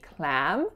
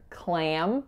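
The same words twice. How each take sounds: First: The vowel is plain, without nasal sound. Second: The vowel is nasalized before the M. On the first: The speaker calls it wrong. "if I wasn't nasalizing it, it would sound just like the a in happy" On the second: The speaker calls it right. "much more common to hear clam with that nasality"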